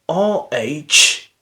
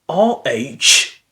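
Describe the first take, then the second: Both takes have the same delivery.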